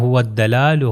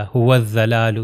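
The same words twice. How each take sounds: First: هو الدلال as "huwad-dalaalu" with a light, thin d; هو الدلال, daad turned into simple d; wrong plain dal. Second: هو الضلال as "huwaz-zalaalu", with a z; هو الضلال, daad turned into a buzzing z; wrong full zaal. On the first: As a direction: say هو الدلال with an ordinary dal, not thick. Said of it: "بالکل دال بھی نہ بڑھے". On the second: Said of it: "یہ پورا ذال بھی نہ بنے". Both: Shown as a demonstration.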